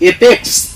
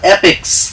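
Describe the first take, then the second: First: The first vowel is a closer 'e' sound. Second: The first vowel is an open 'a' sound. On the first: The speaker calls it wrong. "এপেক্স না অ্যাপেক্স?" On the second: The speaker calls it right. "দেখে না, অ্যাপেক্স।"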